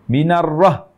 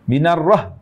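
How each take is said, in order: No difference in how they are said.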